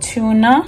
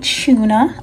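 First: It is said in a non-British accent. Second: It is said in a British accent.

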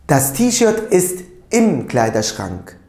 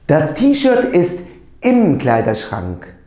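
First: The words 'in dem' are merged into 'im'. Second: The same.

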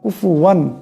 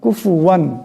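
The two takes are said the same way.

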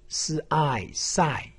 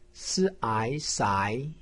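First: The pitch falls sharply from high to low. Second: The pitch rises from middle to high. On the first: "四声" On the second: "二声"

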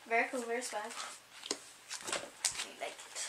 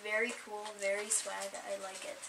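First: It is said in a put-on, weird voice. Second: It is said in a plain, natural voice. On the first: The speaker calls it right. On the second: The speaker calls it wrong.

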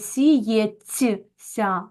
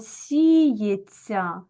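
First: The consonants are said separately, as spelled. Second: The consonants merge into one long soft sound. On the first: The speaker calls it wrong. "ми вимовляємо не сіється" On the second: The speaker calls it right. "ми вимовляємо сіється ... ми чуємо ось це подовжене ся"

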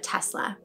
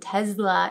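First: The middle consonant is an s sound. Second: The middle consonant is a z sound. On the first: The speaker calls it right. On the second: The speaker calls it wrong.

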